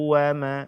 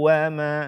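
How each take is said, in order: The two takes are said the same way.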